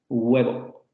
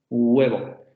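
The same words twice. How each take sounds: Both takes have the same delivery.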